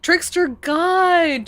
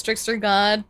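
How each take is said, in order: First: High, drawn-out hail to a god; mock-grand exclamation. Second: Said in the usual way. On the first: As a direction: stretch it out high in playful awe. Repeats the title, hamming it up.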